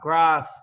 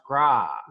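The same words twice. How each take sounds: First: The word ends with an audible S sound. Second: The word ends without any S sound. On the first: The speaker calls it wrong. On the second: The speaker calls it right.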